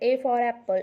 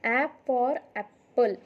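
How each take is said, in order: First: The first letter is said like 'ay'. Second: The first letter is a short 'a' sound. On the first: The speaker calls it wrong. "पण तुम्ही ए म्हणत आहात" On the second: The speaker calls it right. "तो ए नाही आहे, तो आहे ॲ"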